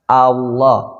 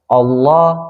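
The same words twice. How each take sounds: First: The first vowel sounds like 'a'. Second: The first vowel sounds like 'o'. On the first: The speaker calls it right. "A dulu baru ke O" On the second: The speaker calls it wrong. "kebanyakan orang menyebutnya uh, melafazkannya O"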